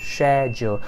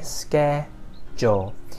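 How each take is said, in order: First: The word begins with an sh sound. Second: The word begins with an sk sound. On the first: "the British one is share" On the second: "The American version would be ske"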